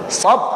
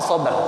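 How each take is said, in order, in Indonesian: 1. Kata ini berakhir tiba-tiba pada konsonan yang dipotong. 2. Konsonan akhir dilepas dengan vokal gema. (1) "Kalau sop banyak, sop pindang, sop ayam"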